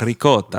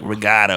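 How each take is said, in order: First: It is said with an Italian-style accent. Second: It is said with a local American accent. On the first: It keeps the Italian way of saying it. "But I'm like ricotta" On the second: This is how most people around here say it. "a lot of people are like ricotta over here"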